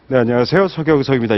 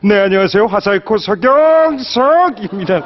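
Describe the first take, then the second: First: It is delivered in a mild, plain way. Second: It is delivered in a strong, exaggerated way.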